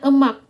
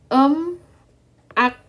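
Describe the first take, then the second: First: The syllables run together as one word. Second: The syllables are said separately with a break. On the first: "tapi kalau kita baca jadinya emak" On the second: "Kan ini kan ini dia kan em ak kan?"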